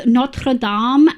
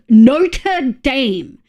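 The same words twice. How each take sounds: First: "Notre Dame" with French r and "dahm"; French pronunciation. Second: "Notre Dame" as "noter daym", drawn out; American pronunciation. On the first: Streamer arguing about pronunciation, "Notre Dame" said French-style. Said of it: "they also pronounce Notre Dame as". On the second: Streamer mocking American usage, "Notre Dame" said as "noter daym". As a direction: say "Notre Dame" slowly the American way, Dame rhyming with name. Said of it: "how Americans want me to pronounce". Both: Shown as a demonstration.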